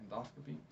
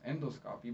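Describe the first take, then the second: First: Endoscopy as en-DOS-kuh-pee, softly; correct endoscopy. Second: Endoscopy as END-oh-scoppy; incorrect endoscopy. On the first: Teacher quietly correcting herself, Endoscopy as en-DOS-kuh-pee. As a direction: say Endoscopy softly with stress on the second syllable. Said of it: "really correct". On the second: Teacher showing the not quite correct form, endoscopy as END-oh-scoppy. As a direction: say endoscopy with a full "endo" up front. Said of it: "but that's not, uh, really correct". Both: Shown as a demonstration.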